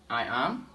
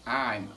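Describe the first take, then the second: First: Two separate words are said, I and am. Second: It is said as one contracted syllable. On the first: "full form" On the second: "short form"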